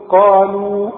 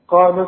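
First: The final vowel is held long. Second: The final vowel is cut short. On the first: The reciter stops after this word. "عند الوقت تقول قالوا" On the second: The word runs on into the next word. "عند الوصف هنلغي المد ده"

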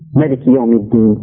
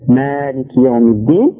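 First: The first vowel 'ma' is kept short. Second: The first vowel 'ma' is held long. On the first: "sans prolonger ma" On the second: "En prolongeant donc ma du début"

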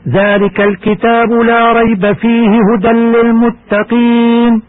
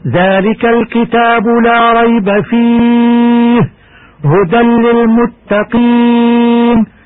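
First: The verse is recited straight through without pausing. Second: There is a pause right after the word fihi. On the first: "كما يجوز الوصل" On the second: "ويجوز أيضا"

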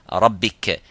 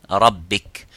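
Both takes have the same delivery.

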